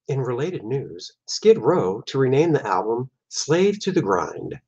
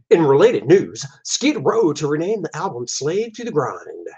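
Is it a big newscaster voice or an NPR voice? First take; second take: NPR; big newscaster. First: It is said in a calm NPR radio voice. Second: It is said in a big, booming newscaster voice.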